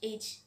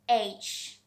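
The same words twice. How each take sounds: First: The letter is said quickly and sharply. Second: The letter is said softly and slowly. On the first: The speaker calls it wrong. "We just shouldn't tell H, H so much faster" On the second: The speaker calls it right. "We have to pronounce it so softly"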